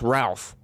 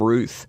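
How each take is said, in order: First: The vowel is an 'ow' sound, like 'mouth'. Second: The vowel is an 'oo' sound, like 'truth'. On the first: The speaker calls it right. "you don't throw a, an O in front of a U and just make it a silent O" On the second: The speaker calls it wrong. "Everybody keeps calling him Ruth"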